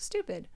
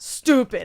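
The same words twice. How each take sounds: First: It is said plainly, in an ordinary way. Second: It is said in his exaggerated, drawn-out way.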